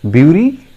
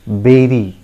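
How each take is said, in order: First: The first syllable sounds like 'byoo'. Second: The first syllable sounds like 'beh'. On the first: The speaker calls it wrong. "I'm sure many of you pronounce it beauty" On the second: The speaker calls it right. "the correct pronunciation is... It is berry"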